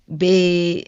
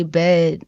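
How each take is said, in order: First: "bed" with a stretched Philly vowel; imitated Philly pronunciation of "bed"; Philly accent. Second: Said in the usual way. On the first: Shown as a demonstration. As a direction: mimic a Philly speaker drawing out the vowel in "bed". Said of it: "y'all will say, like". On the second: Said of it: "and we say".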